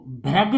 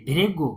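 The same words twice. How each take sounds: First: "भृग" with an "a" sound, as "bhragu"; wrong reading. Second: "भृगु" with a short "ri", as "bhrigu"; correct reading. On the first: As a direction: misread "भृग" as "bhra-gu". ("भृग" को "भ्रगु" पढ़ना) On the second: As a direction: say "भृगु" as "bhri-gu", low. ("भृगु" में "रि" की आवाज़) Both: Shown as a demonstration. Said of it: "नहीं पढ़ेंगे इसे".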